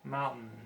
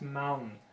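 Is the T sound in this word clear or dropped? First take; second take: dropped; dropped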